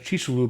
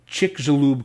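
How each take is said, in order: First: The name is said closer to its native form. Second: The name is said in an anglicized way. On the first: The speaker calls it right. "I think, is the closer way to pronounce it" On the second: The speaker calls it wrong. "I'm going to butcher this name"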